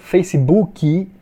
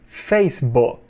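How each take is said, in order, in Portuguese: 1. É falado com pronúncia do português brasileiro. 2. É falado com pronúncia inglesa. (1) "Aqui no Brasil a gente fala Facebook" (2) "but in English"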